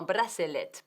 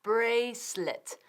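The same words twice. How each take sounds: First: "bracelet" said Spanish-style in three syllables, bra-se-let; read as spelled. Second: "Bracelet" slowly as BRAYS-let; "Bracelet" drawn out, silent middle e; two syllables. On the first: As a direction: pronounce every written vowel of "bracelet": bra-se-let. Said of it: "Se ha escrito como bracelet". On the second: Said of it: "pero es dos sílabas". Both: Shown as a demonstration.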